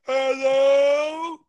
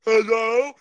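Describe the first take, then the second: First: Long, higher, louder Hello?; drawn-out loud hello. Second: Higher, louder call of Hello?; loud rising hello. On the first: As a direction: stretch out Hello? as a loud call. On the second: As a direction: call Hello? upward to check the line. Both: Real, not acted. Calling out over a bad line.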